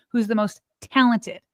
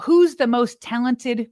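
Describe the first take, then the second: First: TALENTED set apart as the key word; stress on TALENTED. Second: Said in the usual way. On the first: Real, not acted. Host flags the debate's key word, stressing TALENTED. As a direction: land deliberately on the word "talented". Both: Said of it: "Keyword is".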